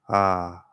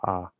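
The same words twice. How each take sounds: First: The sound resonates toward the front of the mouth. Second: The sound resonates deeper, from the throat. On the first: "it sounds maybe like it's kind of coming from the front of the mouth" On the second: "I'm trying to get it coming from my throat more"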